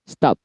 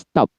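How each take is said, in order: Both takes have the same delivery.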